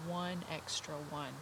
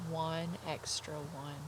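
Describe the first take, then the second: No difference in how they are said.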